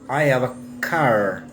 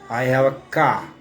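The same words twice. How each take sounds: First: The r at the end of car is sounded. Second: The r at the end of car is silent. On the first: "em inglês estadunidense você vai falar" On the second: "na Inglaterra você não ouve isso... Não tem o R"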